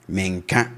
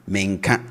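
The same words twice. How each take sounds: The two takes are said the same way.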